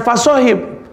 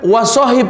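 First: "fasohib" with an opening f sound, high; "fasohib" raised, with "fa" for the first syllable; rejected word. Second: "wasohib" with an opening w sound, high and firm; "wasohib" raised, with "wa" for the first syllable; correct word. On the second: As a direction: say "wasohib" starting on "wa", as the right word. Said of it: "bukan "fasohib". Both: Shown as a demonstration.

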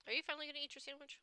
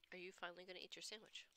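First: Teasing prod. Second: Quiet repeat. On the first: Prodding someone to eat. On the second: Repeated softly. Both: Real, not acted.

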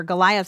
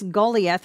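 First: "Goliath" said as guh-LIE-uth; English pronunciation. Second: "Goliath" said as GOH-lee-eth; original-name pronunciation. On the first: Teacher restating the star's name, Goliath pronounced guh-LIE-uth. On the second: Teacher introducing the star event, Goliath pronounced GOH-lee-eth. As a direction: say "Goliath" with a long GOH and an ee in the middle. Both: Shown as a demonstration. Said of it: "as we would say it".

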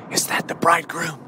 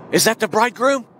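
First: Low, hushed, peering into the dark; hopeful virgin. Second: Lifted question with a rising hopeful end; eager hope. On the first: Virgin peering into the darkness for the bridegroom, hushed and hopeful. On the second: Virgin straining to see the bridegroom, eager lift. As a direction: ask it again with more hope. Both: Acted. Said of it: "And she's saying".

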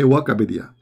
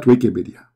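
First: "Wikipedia" said as "Wakapedia"; altered pronunciation. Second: Said in the usual way. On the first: Shown as a demonstration. Host showing how he himself says it, "Wikipedia" pronounced "Wakapedia". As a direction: turn the first syllable of "Wikipedia" into "wah": Wakapedia. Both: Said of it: "not Wikipedia".

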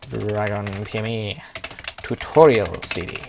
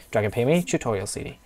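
First: Mock-grand naming. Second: Said in the usual way. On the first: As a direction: stretch out each word of the title. Names the CD, drawing words out.

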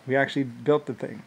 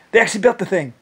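First: Said in the usual way. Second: "They" hit high and loud as a correction; stress on THEY. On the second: Real, not acted. Correcting himself, he stresses THEY. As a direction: punch "They" to fix who built it.

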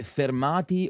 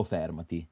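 First: "fermati" stressed fer-MA-ti, drawn out; stress on middle syllable. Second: "fermati" stressed FER-ma-ti; "fermati" as FÈR-ma-ti; stress on first syllable. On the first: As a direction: lean slowly on the "ma" of "fermati". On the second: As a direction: hit the opening syllable of "fermati". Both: Shown as a demonstration. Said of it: "Non senza l'accento tonico".

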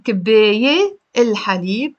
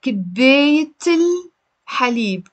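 First: كباية ending in an open vowel, then الحليب; wrong unlinked form. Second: كباية ending in T, run into الحليب; T linked to the article. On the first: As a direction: drop the T before الحليب. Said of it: "instead of saying". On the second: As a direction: join them as kibeyt-il-halib. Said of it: "We have to pronounce the T". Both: Shown as a demonstration.

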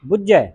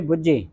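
First: ਬੁੱਝੈ with a tight double jh, open ai; said tightly. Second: ਬੁੱਝੇ softly said, ending in close e; single-lanv ending. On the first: Teacher corrects the class, ਬੁੱਝੈ tight and open-ended. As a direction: squeeze the middle of ਬੁੱਝੈ and open the ending. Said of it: "ਕੱਸ ਕੇ ਬੋਲਣਾ". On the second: Teacher recalls what we usually read, soft ਬੁੱਝੇ with narrow e. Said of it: "ਬੁੱਝੇ ਹੁੰਦਾ ਇੱਕ ਲਾਂ ਦੇ ਨਾਲ". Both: Shown as a demonstration.

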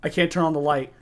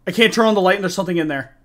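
First: Said in the usual way. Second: Fast, louder, panicked; rising panic. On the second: Real, not acted. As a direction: rush it out in fear. Repeats in growing panic.

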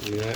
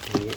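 Both takes have the same delivery.

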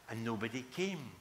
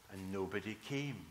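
Both takes have the same delivery.

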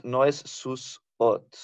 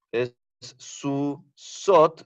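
First: Slow "sus ot", s closing first syllable; wrong split. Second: Very slow "su sot"; correct split. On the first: Teacher showing the wrong split. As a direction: say "sus ot" as the mistake. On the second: Teacher slowly modeling correct syllables. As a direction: stretch "su sot" with s opening second syllable. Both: Shown as a demonstration.

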